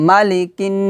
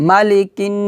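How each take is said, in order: The two takes are said the same way.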